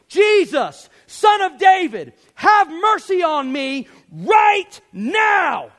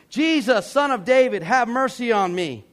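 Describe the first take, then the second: First: It is yelled emphatically, like a preacher. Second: It is said calmly and quietly.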